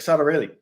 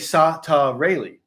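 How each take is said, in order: First: The syllables are said fast and squished together. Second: The syllables are said slowly and separately.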